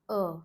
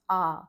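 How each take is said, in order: First: The vowel is said with a closed mouth. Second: The vowel is said with an open mouth. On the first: The speaker calls it right. "closed mouth A" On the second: The speaker calls it wrong. "It is not A"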